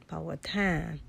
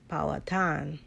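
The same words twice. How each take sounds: First: It is said with a regional twang. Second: The same.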